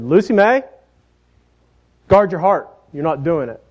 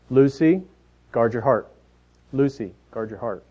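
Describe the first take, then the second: First: Put-on higher, firmer warning to a stubborn child; stern mother. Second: Put-on soft, patient mom coaching her toddler; mother's gentle reminder. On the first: Mom losing patience with defiant Lucy, stern warning. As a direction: put your foot down, full name and all. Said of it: "that tone that was changing". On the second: Mom patiently coaching toddler Lucy, gentle reminder. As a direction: coax her, calmly, lightly imitated. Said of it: "that tone in a mother's voice".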